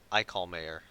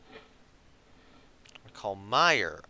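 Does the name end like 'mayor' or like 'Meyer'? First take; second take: mayor; Meyer. First: The name ends sounding like the word 'mayor'. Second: The name ends sounding like 'Meyer', rhyming with 'fire'. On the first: The speaker calls it wrong. "not Mayor" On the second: The speaker calls it right. "I've got Meyer, not Mayor"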